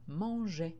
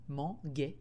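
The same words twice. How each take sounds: First: The g is soft, like the j sound. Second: The g is hard, like in gui. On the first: The speaker calls it right. "j'ai été obligée de rajouter un E pour faire le son J" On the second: The speaker calls it wrong. "on ne parle pas comme ça"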